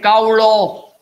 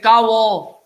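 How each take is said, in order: First: The middle consonant is an L sound. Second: The middle consonant is a V sound. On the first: This is the form other speakers use. "They cannot say kaulo" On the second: This is the form used in the Bardeshi dialect. "they say kavo in Bardeshi Konkani"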